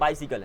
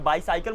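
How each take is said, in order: First: The ending sounds like the word sickle. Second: The ending sounds like the word cycle. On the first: The speaker calls it right. "बाइसिकल है" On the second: The speaker calls it wrong. "बाई साइकिल मत बोलो"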